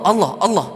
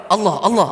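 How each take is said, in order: Both takes have the same delivery.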